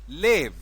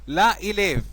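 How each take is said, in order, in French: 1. La voyelle de l'article tombe et se lie au nom. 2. La voyelle de l'article se prononce à part, devant le nom. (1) "C'est vrai" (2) "c'est faux"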